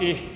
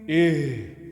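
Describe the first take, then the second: First: The h is light and plain, from the mouth. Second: The h is deep and heavy, from the chest. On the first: The speaker calls it wrong. "bukan ih" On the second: The speaker calls it right. "H besar dah"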